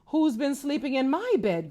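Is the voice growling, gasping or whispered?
gasping. It is said with a gasping, breathy voice.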